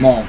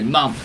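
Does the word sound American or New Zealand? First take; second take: American; New Zealand. First: It has the American vowel, like 'mom'. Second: It has the New Zealand vowel, like 'mum'. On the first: "moms from America" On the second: "mums from New Zealand"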